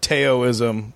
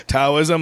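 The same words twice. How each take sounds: First: "Taoism" said as TAY-oh-ism, hard T; "Taoism" starting like "Tayo"; mispronounced Taoism. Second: "Taoism" said as TOW-ism, rhyming with "now"; "Taoism" opening on an "ow" sound; corrected pronunciation. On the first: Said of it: "that's how he pronounced it". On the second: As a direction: say "Taoism" with a "tao" like "now", questioning. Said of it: "My philosophy teacher's like". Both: Retold or imitated.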